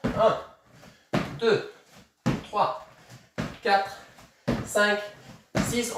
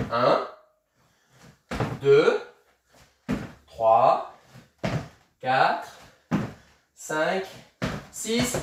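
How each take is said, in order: First: Quicker count, shorter gaps; faster count. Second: Slow, drawn-out count with long gaps. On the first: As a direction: pick up the pace on the count. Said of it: "on repart un peu plus vite". (compter un peu plus vite) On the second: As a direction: count it out slowly, calmly. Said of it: "On y va tranquille au début". (compter lentement, posément) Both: Shown as a demonstration.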